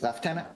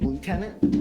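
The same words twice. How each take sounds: First: It is said with a British pronunciation. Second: It is said with an American pronunciation. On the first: "but in the U K, it's lieutenant" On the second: "over here in the States, we say lieutenant"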